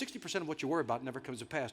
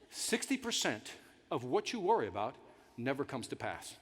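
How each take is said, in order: First: It is said at a normal pace. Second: It is said slowly and deliberately.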